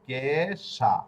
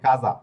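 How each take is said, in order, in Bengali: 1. মাঝের ব্যঞ্জনটি একটি অঘোষ s ধ্বনি। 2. মাঝের ব্যঞ্জনটি একটি ঘোষ z ধ্বনি। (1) "ইংরেজি উচ্চারণ যদি করেন তাহলে হবে কেশা" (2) "বড়িগার জ এর উচ্চারণ কাজা"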